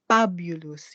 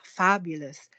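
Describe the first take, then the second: First: It is said in a Filipino accent. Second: It is said in a standard accent.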